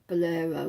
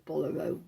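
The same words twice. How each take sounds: First: "bolero" stressed on the middle syllable, buh-LAIR-oh; bolero, second-syllable stress. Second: "bolero" stressed on the first syllable, BOL-uh-roh. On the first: Knitter offering one way to say a garment's name, "bolero" as buh-LAIR-oh. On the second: Knitter offering the other way to say it, "bolero" as BOL-uh-roh. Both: Shown as a demonstration. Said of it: "however you want to pronounce it".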